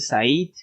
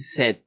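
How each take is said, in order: First: The vowel is not a short 'e' sound. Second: The vowel is a short 'e' sound. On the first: The speaker calls it wrong. "no se dice Said" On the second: The speaker calls it right. "se dice sed con la E"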